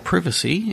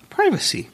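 First: It is said with a British pronunciation. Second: It is said with an American pronunciation.

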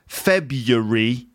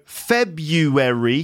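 First: The word is said with three syllables. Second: The word is said with four syllables. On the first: "three syllables" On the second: "four syllables"

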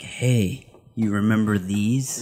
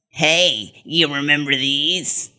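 First: It is said in a plain, ordinary voice. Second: It is said in a put-on voice.

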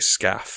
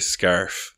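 First: The word sounds like the start of 'scaffolding'. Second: The word is said in the usual way. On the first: "they say scaff. Like the scaffolding" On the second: "they don't say scarf"

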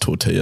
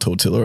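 First: The double L sounds like a y. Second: The double L sounds like an l. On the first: The speaker calls it right. "do you know it's tortilla" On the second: The speaker calls it wrong. "not tortilla? I got sprayed about that"

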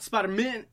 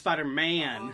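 First: The final 'man' is reduced, like a surname ending. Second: The final 'man' is fully pronounced and separate. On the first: It sounds like a family name. The speaker calls it wrong. "it's not Spider-Man" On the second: It is a hero name, not a surname. The speaker calls it right. "it's Spider-Man"

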